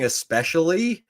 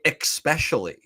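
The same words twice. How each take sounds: First: The word begins with a plain 'es' sound. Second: The word begins with an 'ex' sound. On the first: The speaker calls it right. "instead of saying especially" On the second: The speaker calls it wrong. "he was saying especially"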